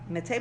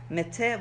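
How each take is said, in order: First: The first vowel is a short, reduced schwa. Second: The first vowel is a full 'e' sound. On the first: It means people. "with a shva" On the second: It means dead. "with a tzere"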